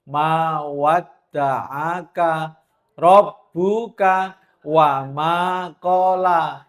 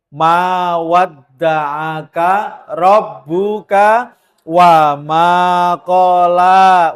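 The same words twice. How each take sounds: First: Slow, gently recited Arabic. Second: Slow, louder recited Arabic; Quran recitation. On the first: Recites verse again softly. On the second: Preacher reciting Ad-Duha to comfort the women, slow and louder. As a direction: recite the verse slowly and loudly. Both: Acted.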